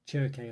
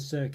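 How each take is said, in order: First: The word begins with a ch sound. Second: The word begins with an s sound. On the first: The speaker calls it right. "pronounced with like a ch rather than a, a s" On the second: The speaker calls it wrong. "rather than Circe"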